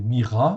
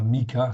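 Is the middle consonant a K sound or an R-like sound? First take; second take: R sound; K sound. First: The middle consonant is an R-like sound. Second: The middle consonant is a hard K sound. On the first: The speaker calls it right. "Donc le K H se prononce R" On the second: The speaker calls it wrong. "c'est pas Mika"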